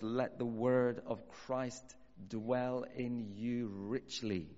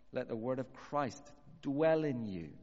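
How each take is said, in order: First: Words drawn out very slowly, each one weighed; slow scripture reading. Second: Said in the usual way. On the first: Shown as a demonstration. Preacher reading Colossians to the congregation, very slow and deliberate. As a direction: lay the verse down slowly, word by word.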